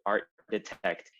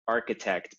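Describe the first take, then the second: First: It is said as two words, 'art detect'. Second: It is said with the usual 'ark' opening. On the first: This is how the word was mispronounced. The speaker calls it wrong. "he pronounced it incorrectly to art detect" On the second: This is the word that was meant. The speaker calls it right. "he said architect"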